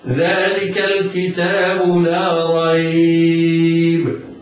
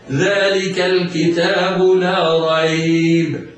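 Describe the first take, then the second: First: The last word's vowel is held very long. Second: The last word's vowel is not lengthened at all. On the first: "والطول بمقدار ست حركات هكذا" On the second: "سقوط المد هكذا"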